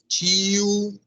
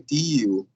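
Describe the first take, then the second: First: It begins with a CH sound. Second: It begins with a plain T sound. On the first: The speaker calls it right. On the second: The speaker calls it wrong.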